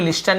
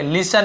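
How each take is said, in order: First: "लिस्टन" said as lis-ten with an audible t; t wrongly sounded. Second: "लिसन" said as lis-an with no t; silent t. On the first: Teacher showing the reading to avoid, "लिस्टन" with t sounded. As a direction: put a t after the s in "लिस्टन". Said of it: "लिस्टन नहीं पढ़ेंगे". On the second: Teacher giving learners the reading, "लिसन" with t silent. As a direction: say "लिसन", s running straight into the vowel. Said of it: "लिसन पढ़ेंगे". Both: Shown as a demonstration.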